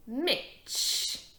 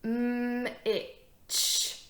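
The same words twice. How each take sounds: First: MITCH blended as one word, higher. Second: MM held long, then ITCH, apart; sounded out. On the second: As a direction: sound out "mm, itch" with a gap between. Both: Shown as a demonstration. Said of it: "My next word is".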